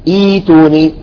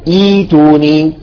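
Both takes have the same delivery.

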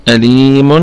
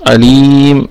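Both takes have the same delivery.

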